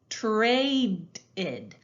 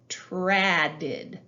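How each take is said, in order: First: The first vowel is a long a sound. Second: The first vowel is a short a sound. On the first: The speaker calls it right. "It would say A" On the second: The speaker calls it wrong. "That doesn't sound right"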